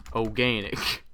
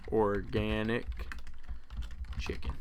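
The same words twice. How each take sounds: First: Said in the usual way. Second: Slow, chuckling through the word organic; laughing. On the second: Real, not acted. Rereads the name, amused.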